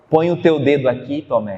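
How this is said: It sounds gentle and merciful.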